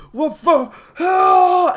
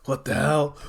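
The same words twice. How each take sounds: First: High, drawn-out villain scream; acted death cry; panicked scream. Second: Said in the usual way. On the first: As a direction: stretch it into a loud, high yell.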